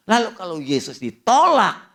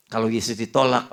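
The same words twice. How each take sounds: First: High, loud punch on ditolak; emphatic preaching. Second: Said in the usual way. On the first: Acted. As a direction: hit "ditolak" hard, rising into a cry. Preacher hammers rejection of Jesus.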